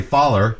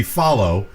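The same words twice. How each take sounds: First: "follow" said as "foller", the ending turned into an -er sound; Southern pronunciation. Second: Said in the usual way. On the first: Shown as a demonstration. Podcaster showing the Deep South way to say it, "follow" as "foller". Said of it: "but in Deep Southern, it's saying". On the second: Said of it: "In the script, again, that should be".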